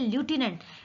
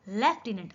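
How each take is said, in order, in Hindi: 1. यह 'lyoo' से शुरू होता है और इसमें 'f' की ध्वनि नहीं है। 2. यह 'lef' से शुरू होता है और इसमें 'f' की ध्वनि है। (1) "बट ल्यूटिनेंट नहीं है" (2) "ये है लेफ्टिनेंट"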